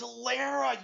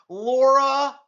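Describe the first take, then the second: First: The name is said as 'Lara'. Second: The name is said as 'Laura'. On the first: The speaker calls it right. "It's Lara" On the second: The speaker calls it wrong. "mispronounce my wife's name"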